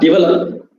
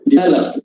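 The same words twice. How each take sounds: First: The stress is not on the second syllable. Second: The stress is on the second syllable. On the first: The speaker calls it wrong. "Not develop" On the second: The speaker calls it right. "Stress falls on the second syllable"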